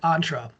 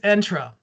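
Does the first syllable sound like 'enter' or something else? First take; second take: something else; like enter. First: The first syllable does not sound like 'enter'. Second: The first syllable sounds like 'enter'. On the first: It relates to going on a ride. The speaker calls it wrong. "the word like you have to go on a ride" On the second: It relates to entering a place. The speaker calls it right. "It's entra to enter"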